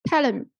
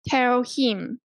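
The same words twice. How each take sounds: First: The h is dropped, linking tell into him. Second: The h in him is clearly pronounced. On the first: The speaker calls it right. "omitting H" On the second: The speaker calls it wrong. "you didn't say"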